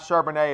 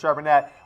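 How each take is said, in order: First: The name is said the French way. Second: The name is not said the French way. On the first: The speaker calls it wrong. "I've actually been pronouncing it like he was French" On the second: The speaker calls it right. "it's Charbonnet"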